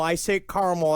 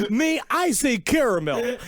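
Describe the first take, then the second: First: "caramel" as CAR-mull; two-syllable caramel. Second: "caramel" as CARE-uh-mel, higher; three-syllable caramel. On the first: Guest answering the radio host, "caramel" as CAR-mull. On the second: Host correcting his guest, "caramel" as full CARE-uh-mel. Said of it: "why forget the second A?". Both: Acted.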